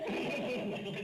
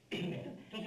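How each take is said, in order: First: It is said slowly. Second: It is said fast.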